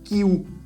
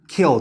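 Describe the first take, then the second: First: The word ends with a U-like vowel sound. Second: The word ends with a clear L sound. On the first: The speaker calls it wrong. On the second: The speaker calls it right.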